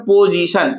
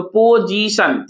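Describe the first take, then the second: First: Said in the usual way. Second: "पोजीशन" slowly as पो-जी-शन; split into syllables. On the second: Shown as a demonstration. Teacher asking students to count parts, slow and separated. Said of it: "कितने part में तोड़े".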